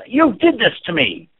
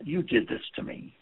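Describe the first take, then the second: First: Loud, slow, angry accusation; loud furious blame. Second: Softer, breathy hurt accusation; soft hurt complaint; low-energy accusation. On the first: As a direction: throw it at them hard. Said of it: "Or if it's". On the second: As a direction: say it quietly, almost whispered. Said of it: "Another example". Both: Shown as a demonstration.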